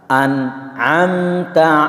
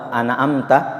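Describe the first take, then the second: First: The n is closed cleanly without a vowel. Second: The n is bounced with an added vowel. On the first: The speaker calls it right. "harusnya dibaca jelas ... Itu yang betul" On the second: The speaker calls it wrong. "itu sudah salah cara menyebutnya"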